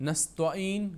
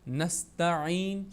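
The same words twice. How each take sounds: First: The t is said heavy, like emphatic ṭa. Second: The t is said light, as plain ta. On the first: The speaker calls it wrong. "नस्तईन गलत है" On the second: The speaker calls it right. "नस्तईन सही है"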